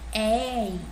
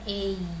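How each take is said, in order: First: The first vowel is open, with the mouth wider. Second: The first vowel is closed, with the mouth narrower. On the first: "eu sei que ele é aberto" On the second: "se fosse fechado seria"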